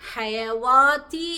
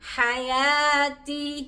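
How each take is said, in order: First: A w sound is heard before the long a. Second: A long a is heard with no w sound. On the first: The speaker calls it wrong. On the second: The speaker calls it right.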